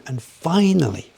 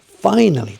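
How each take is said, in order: First: Said in the usual way. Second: Finally said louder and higher, falling at the end; emphatic finally. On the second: Real, not acted.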